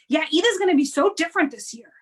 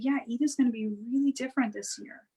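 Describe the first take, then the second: First: It is said in a fearful, anxious tone. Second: It is said in a soft, calm tone.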